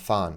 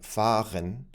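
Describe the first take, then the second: First: The word is said in a shortened, reduced form. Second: The word is said with every sound in full. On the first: "is often pronounced" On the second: "a word like fahren"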